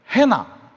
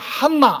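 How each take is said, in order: First: The first vowel is 'ae' with a single n. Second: The first vowel is 'ah' with a doubled n. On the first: "미국식 발음입니다" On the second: "이렇게 안 합니다"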